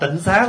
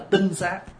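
First: The first syllable has a low, heavy tone. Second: The first syllable has a level tone. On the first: The speaker calls it wrong. "mình thêm dấu nặng vô là chữ tịnh" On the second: The speaker calls it right. "Nếu đọc đúng chữ là tinh xá"

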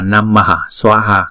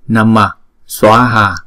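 First: It is two separate words, keeping the ha. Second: It is joined into one word without the ha. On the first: The speaker calls it wrong. "chứ chúng ta không đọc là" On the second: The speaker calls it right. "chúng ta chỉ đọc là namaswaha được rồi"

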